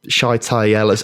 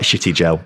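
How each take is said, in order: First: The name sounds like 'Shy-tie Ellis'. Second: The name sounds like 'Shitty Gel'. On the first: This is how the name is meant to be said. The speaker calls it right. "I think meant to be pronounced like" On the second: This is how the name looks when read in English. The speaker calls it wrong. "to me it looks like Shitty Gel"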